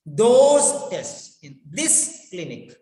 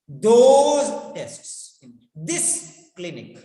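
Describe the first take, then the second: First: Slow, with those and this pressed harder; stress on those and this. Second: THOSE and THIS hit louder, slowly; stress on those and this. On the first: Teacher repeating the stress demo on those and this. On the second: Teacher showing sentence stress on those and this. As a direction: lean on those and this. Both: Shown as a demonstration. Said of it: "so those and this are emphasized".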